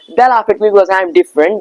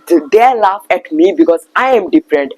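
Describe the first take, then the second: First: It is spoken in an American English accent. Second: It is spoken in an Indian English accent. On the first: "now it is the time for the American accent" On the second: "I will pronounce in my normal accent, which is the Indian accent"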